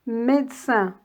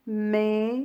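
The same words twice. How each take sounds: First: Said in the usual way. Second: "médecin" broken into mé, de, cin with pauses; split into syllables. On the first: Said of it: "Découpez les mots en syllabes". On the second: Shown as a demonstration. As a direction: sound the middle e in "médecin": mé... de... cin. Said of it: "On dit".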